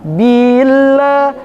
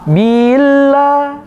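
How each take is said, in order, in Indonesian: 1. Vokal setelah b dipanjangkan. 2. Vokal setelah b dipanjangkan.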